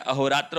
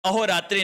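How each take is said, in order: First: अहोरात्र ending without the i; correct pronunciation. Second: अहोरात्रि ending in i; wrong pronunciation. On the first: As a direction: say अहोरात्र as "aho-raatra". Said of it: "होता है". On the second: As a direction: say अहोरात्रि as "aho-raatri". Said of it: "नहीं होता है". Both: Shown as a demonstration.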